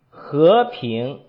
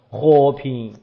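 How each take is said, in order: First: Rising tones, as in Beijing speech. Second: Low tones, as in Hubei speech.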